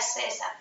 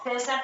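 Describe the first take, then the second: First: The c sounds like an s. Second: The c sounds like English th. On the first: This is how Canary Islanders pronounce it. "César para ellos sería César" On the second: This is the speaker's own regional pronunciation. "lo que nosotros pronunciamos como ce"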